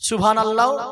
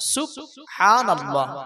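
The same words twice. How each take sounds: First: The b and h merge into one 'bh' sound. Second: The b and h are said as separate sounds. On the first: The speaker calls it wrong. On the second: The speaker calls it right.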